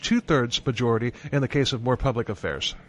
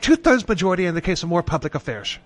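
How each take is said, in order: First: It is said in the speaker's ordinary accent. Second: It is said in a put-on British accent.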